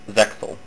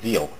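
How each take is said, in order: First: The name is said with an English pronunciation. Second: The name is said with a Japanese pronunciation.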